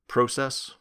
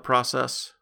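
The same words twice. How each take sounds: First: The word is said with a Canadian pronunciation. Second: The word is said without a Canadian pronunciation.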